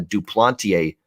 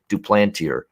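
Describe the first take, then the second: First: The name is pronounced the French way. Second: The name is pronounced the English way. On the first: The speaker calls it wrong. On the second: The speaker calls it right.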